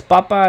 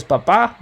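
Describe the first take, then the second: First: Papa with the first syllable stressed, louder. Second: Papa with the final A stressed; stress on last syllable. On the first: Teacher shows students papa meaning potato, stressed on the first syllable. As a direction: say PA-pa, final A left weak. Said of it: "Without the accent mark". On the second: Teacher shows students papa meaning dad, stressed on the last A. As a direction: hit the second syllable of papa, pa-PA. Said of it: "put the accent mark on the A". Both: Shown as a demonstration.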